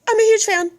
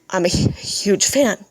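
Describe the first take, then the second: First: It is said in a raised, excited fangirl voice. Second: It is said in her ordinary speaking voice. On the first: The speaker calls it right. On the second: The speaker calls it wrong.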